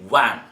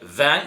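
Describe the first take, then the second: First: The word begins with a W sound. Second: The word begins with a V sound. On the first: "around forty percent pronounce it w" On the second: "If you say van"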